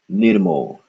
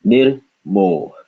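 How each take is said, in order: First: "Nirmo" as one word, ending on an exhaled h; joined pronunciation. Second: "Nir, mo" with a short break between syllables. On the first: Teacher putting the syllables together, "Nirmo" as one word. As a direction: join "Nirmo" without a break, falling at the end. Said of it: "the ha at the end is just an exhalation". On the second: Teacher showing the split, "Nir, mo" in two syllables. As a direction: say "Nir", brief pause, then "mo" trailing out. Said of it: "Second syllable". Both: Shown as a demonstration.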